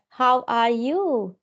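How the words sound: Each syllable is pronounced separately and emphasized. The speaker calls it wrong. "Not like that. Like in our Indian sound"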